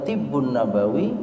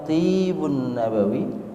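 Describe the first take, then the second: First: The vowel in the first word is short. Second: The vowel in the first word is long. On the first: It means the medicine of the Prophet. "berarti pengobatan Nabi" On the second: It means the perfume of the Prophet. "Panjang membacanya, tentu beda maknanya"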